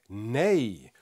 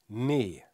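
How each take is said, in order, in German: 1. Der Vokal endet mit einem j-ähnlichen Gleitlaut. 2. Der Vokal ist ein schlichtes langes e. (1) "Am Ende hört man so einen J-Klang" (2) "das E wird doppelt geschrieben, dann ist das ein langes E"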